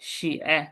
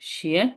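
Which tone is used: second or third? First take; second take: third; second. First: It is said with a third, dipping tone. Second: It is said with a second, rising tone. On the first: It means to write. "ইর উপর third tone দিলে অর্থ হয়ে যায় কি? রাইট।" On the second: It means shoe. "Second tone দিলে জুতা।"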